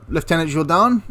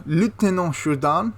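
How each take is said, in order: First: "Lieutenant" said the British way, "LEF-tenant"; "Lieutenant" as "leftenant", English style. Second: "Lieutenant" said the French way, "loo-teh-NAHN"; "Lieutenant" as "lootenant" with French vowels, "Jourdan" French; French pronunciation. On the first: Naming the SAS officer, British "leftenant". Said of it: "'cause lieutenant is actually the French way of saying it". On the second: Correcting himself to the French officer's title, French style. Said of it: "I should call him Lieutenant Jourdan". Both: Shown as a demonstration.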